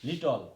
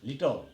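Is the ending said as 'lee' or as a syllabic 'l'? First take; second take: syllabic l; syllabic l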